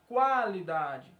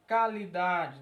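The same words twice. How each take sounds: First: The U after the Q is pronounced. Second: The U after the Q is silent. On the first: The speaker calls it right. "cada letra vai ser pronunciada, tanto o Q quanto o U" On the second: The speaker calls it wrong. "Você não vai falar"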